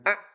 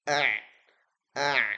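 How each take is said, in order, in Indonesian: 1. Bunyinya dihentikan dan ditahan. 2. Bunyinya mengalir sedikit. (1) "bukan a a tertahan" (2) "ngalir sedikit"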